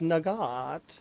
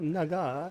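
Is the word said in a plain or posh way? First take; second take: posh; plain. First: The word is said in an exaggerated posh way. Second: The word is said in a plain, ordinary way. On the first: The speaker calls it right. "it's nugget. Uh, very posh" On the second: The speaker calls it wrong. "it's not nugget"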